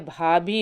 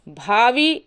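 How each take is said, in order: First: भाभी with a second bh, not v; correct form. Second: भावी with a v, rising at the end; wrong form. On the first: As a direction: close the lips for the second bh of भाभी. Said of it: "भाभी होता है". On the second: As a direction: say भावी as "bhaavee". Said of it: "भावी नहीं होता है". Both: Shown as a demonstration.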